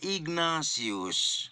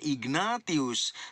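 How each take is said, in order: First: The name is said in its usual spoken form. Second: The name is sounded out as it is spelled. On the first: "tetapi dibaca Ignatius" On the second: "Penulisannya Ignatius"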